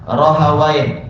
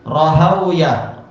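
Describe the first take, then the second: First: The name ends with the sound 'wai'. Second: The name ends with the sounds 'wiyah'. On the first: Most scholars read it this way. "Rata-rata masyayikh membaca ... juga apa? Rohawai" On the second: Some Indian scholars read it this way. "sebagian masyayikh India mengatakan ... bacanya adalah"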